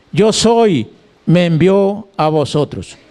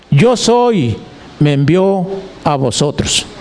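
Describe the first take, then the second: The two takes are said the same way.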